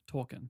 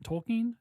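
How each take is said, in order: First: "Tolkien" with a short, unstressed -kin ending; TOL-kin variant. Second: "Tolkien" with a long KEEN ending, higher; TOL-keen variant. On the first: Offering co-hosts the other pronunciation, TOL-kin variant. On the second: Asking co-hosts how to pronounce it, TOL-keen variant. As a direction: offer "Tolkien" as TOL-keen, pitched up, questioning. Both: Shown as a demonstration. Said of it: "how do you guys pronounce Tolkien".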